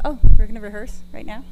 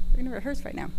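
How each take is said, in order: First: Surprised. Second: Said in the usual way. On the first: Real, not acted.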